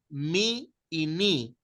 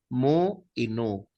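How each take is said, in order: First: The letter names are said with an 'ee' vowel. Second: The letter names are said with an 'oo' vowel. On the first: This is how some people name the letters. "Algunos le llaman mi y ni" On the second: This is the Erasmian pronunciation. "Yo prefiero la pronunciación medieval, la pronunciación erasmiana"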